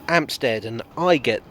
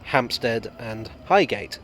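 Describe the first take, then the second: First: The h sounds at word starts are dropped. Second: The h sounds at word starts are pronounced. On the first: It marks working-class speech. The speaker calls it wrong. "the working-class staff of the C C E H R for saying" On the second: It marks proper, genteel speech. The speaker calls it right. "proper use of the aspirate"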